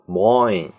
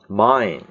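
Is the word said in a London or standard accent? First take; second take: London; standard. First: It is said in a London Cockney accent. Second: It is said in a standard English accent. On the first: "他们会说呢mine" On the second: "我的呢mine"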